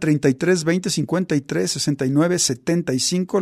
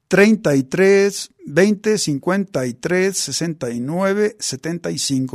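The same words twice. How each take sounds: First: The number is said at normal speed. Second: The number is said slowly.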